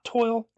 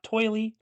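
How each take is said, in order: First: It rhymes with oil, one syllable. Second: It sounds like oil with an added ee ending. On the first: "Not toil" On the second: "not toily"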